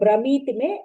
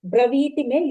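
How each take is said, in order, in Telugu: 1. రెండవ హల్లు 'm' ధ్వని. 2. రెండవ హల్లు 'v' ధ్వని. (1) "you recited Bramiti me" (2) "va pronunciation corrected"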